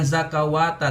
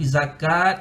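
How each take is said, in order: First: The word ends with an extra wata. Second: The word ends with a short at. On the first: The speaker calls it wrong. "bukan zakawata" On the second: The speaker calls it right. "tapi zakat sahaja"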